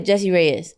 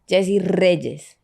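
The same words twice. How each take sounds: First: The name is said with a plain English R. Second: The name is said with a rolled Spanish R. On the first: "the English way" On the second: "if you want to get saucy"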